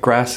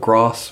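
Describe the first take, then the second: First: It is said in a non-southern English accent. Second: It is said in a southern English accent. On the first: "I might say things like grass" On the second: "which people from the south of England might say"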